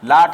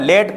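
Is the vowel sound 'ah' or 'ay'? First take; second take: ah; ay. First: The vowel sounds like 'ah'. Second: The vowel sounds like 'ay'. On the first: The speaker calls it wrong. "लाट हमारा ये गलत हो जाएगा" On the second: The speaker calls it right. "एक ही मात्रा का उच्चारण हो रहा"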